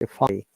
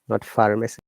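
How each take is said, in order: First: The r sound is silent. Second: The r sound is pronounced. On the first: The speaker calls it right. "Of course, no R sound" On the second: The speaker calls it wrong.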